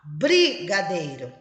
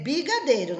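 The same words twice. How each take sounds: First: Brigadeiro with a clear tapped r after the b; correct spelling said. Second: Brigadeiro said as bigadeiro, no r after the b; r dropped. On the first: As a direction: say Brigadeiro fully, bri-ga-dei-ro. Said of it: "Ela pode escrever brigadeiro". (Brigadeiro com o r pronunciado) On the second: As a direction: brigadeiro the way the child writes it, b-i-ga-deiro. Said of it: "R, dois R, não é considerado". (brigadeiro sem o r, bigadeiro) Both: Shown as a demonstration.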